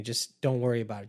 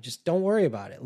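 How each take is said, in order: First: Calm brush-off, slightly raised; mild dismissive. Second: Higher, louder and fast; exasperated dismissal. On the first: Manipulator brushing off the complainer, casually dismissive. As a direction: wave it away casually. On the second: Manipulator losing patience with the complainer, fast and loud. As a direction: snap it off impatiently. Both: Retold or imitated.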